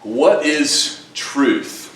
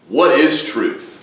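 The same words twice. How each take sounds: First: It is asked in an open, curious tone. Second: It is said simply, in a plain tone. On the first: It opens a thoughtful discussion about life and knowledge. "could be the beginning of a long conversation" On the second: It sums up a world full of misinformation. "if we simply said"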